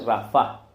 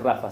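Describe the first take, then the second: First: The stress is on the last syllable. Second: The stress is on the first syllable. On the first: The speaker calls it right. "se dice Rafa, porque el acento está en la A" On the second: The speaker calls it wrong. "no se dice Rafa"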